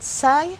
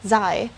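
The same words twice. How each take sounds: First: The first sound is not a Z sound. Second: The first sound is a Z sound. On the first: The speaker calls it wrong. "So it's not xi" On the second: The speaker calls it right. "you would hear the sound of the letter Z"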